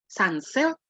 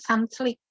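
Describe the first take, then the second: First: The second part sounds like 'silk'. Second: The second part sounds like 'slick'. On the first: The speaker calls it right. "Dia mau bilang sunsilk" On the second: The speaker calls it wrong. "keluarnya sunslick. Ya, salah"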